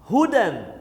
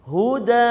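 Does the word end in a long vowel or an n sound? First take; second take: n sound; long vowel. First: The word ends with an n sound. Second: The word ends with a lengthened a vowel. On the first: The reading continues without stopping. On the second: The reader stops on this word.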